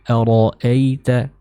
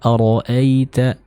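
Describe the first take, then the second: Both takes have the same delivery.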